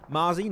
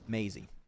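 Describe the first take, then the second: First: The first syllable sounds like 'ma'. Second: The first syllable sounds like 'may'. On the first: The speaker calls it wrong. "Because I see M A, I go Ma" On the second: The speaker calls it right. "It's pronounced May Maisie"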